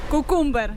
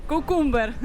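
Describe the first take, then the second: The two takes are said the same way.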